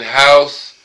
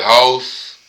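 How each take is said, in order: First: Said in the usual way. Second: "house" in a country accent, drawn out slowly. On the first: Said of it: "instead of saying house". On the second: Shown as a demonstration. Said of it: "niggas say house".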